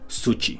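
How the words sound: The middle consonant is a hard ch sound. "la she se pronuncia como che"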